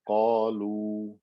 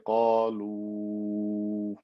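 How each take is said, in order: First: The final vowel is kept short. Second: The final vowel is stretched long. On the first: The reciter stops on the word. The speaker calls it right. "if I just stopped and said" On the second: The word is joined to the hamza after it. The speaker calls it wrong. "I wouldn't say"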